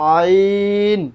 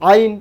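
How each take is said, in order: First: The vowel is drawn out long. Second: The vowel is cut short. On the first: The speaker calls it right. "এখানেও তিন আলিফ টান।" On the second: The speaker calls it wrong. "আইন এমন না"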